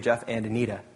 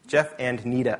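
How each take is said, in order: First: All syllables of the name are pronounced. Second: The first syllable of the name is dropped. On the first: "there's an extra syllable there" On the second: "So it's always Jeff and Nita"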